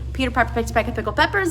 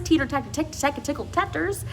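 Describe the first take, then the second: First: The P sounds are made with the lips. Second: The P sounds are replaced by T-like sounds.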